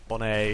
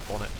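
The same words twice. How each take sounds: First: It is said with a French accent. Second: It is said with a plain English accent.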